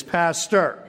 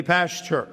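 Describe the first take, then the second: First: "pastor" said as PASS-ter, clean t; corrected to "pastor". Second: "pasture" said as PASS-cher; mispronounced as "pasture". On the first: Preacher correcting people who call him pasture, "pastor" with a plain t. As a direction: say "pastor" with a crisp t, no sh. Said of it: "I often tell them". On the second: People greeting the preacher by his title, "pasture" with a sh sound. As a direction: imitate people slurring pastor into "pasture". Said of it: "Some people actually call me that". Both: Retold or imitated.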